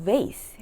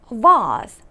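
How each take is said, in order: First: It is said with an American pronunciation. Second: It is said with a British pronunciation. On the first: "우리한테 익숙한 발음은 vase, 미국식 발음이고요" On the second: "vase 이렇게 영국식 발음이 나왔네요"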